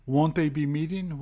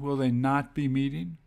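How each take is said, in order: First: Said in the usual way. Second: "not" carries the question's weight; emphasis on NOT. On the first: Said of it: "you can once again split it". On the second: Shown as a demonstration. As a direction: stress "not" after "they". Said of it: "The emphasis is on not".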